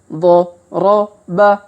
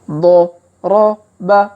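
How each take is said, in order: The two takes are said the same way.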